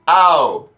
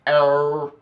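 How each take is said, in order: First: It is said loudly in a Roman accent. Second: It is said with an American accent. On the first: The speaker calls it right. "You must say ow, like over the top, out loud" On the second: The speaker calls it wrong. "with like a really like American accent like er"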